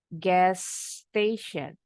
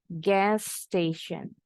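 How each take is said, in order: First: The two words join with one s sound. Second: The same.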